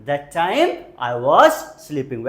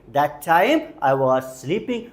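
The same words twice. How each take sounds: First: Slow, clear teacher delivery; slow model sentence. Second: Slow, even teacher repeat. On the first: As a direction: spell it out slowly for learners. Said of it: "Very good, कोशिश करते रहिए". (धीमा, साफ़ उच्चारण) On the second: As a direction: say it slowly again for the class. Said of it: "कोशिश करते रहिए". (धीमी दोहराहट) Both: Shown as a demonstration.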